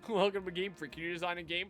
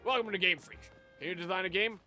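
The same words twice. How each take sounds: First: It is read in the speaker's ordinary voice. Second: It is read in a put-on gruff character voice.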